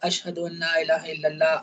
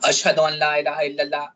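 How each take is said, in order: First: It is said in a soft, low voice. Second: It is said in a loud, raised voice. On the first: "पहली बार ... हल्की आवाज़ में कहा" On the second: "दूसरी बार कहा तो उसने तेज़ आवाज़ में कहा"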